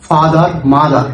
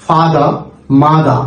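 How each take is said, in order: First: "ফাদার, মাদার" with the final r sounded; American r closing "ফাদার" and "মাদার"; American pronunciation. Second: "ফাদার, মাদার" ending in an open ah; British pronunciation. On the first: Teacher repeats the American example for learners, American pronunciation. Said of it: "আমেরিকানরা, আহ, তারা বলছে". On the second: Teacher shows learners how the British say it, British pronunciation. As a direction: drop the final r of "ফাদার" and "মাদার". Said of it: "ব্রিটিশরা বলছে যে". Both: Shown as a demonstration.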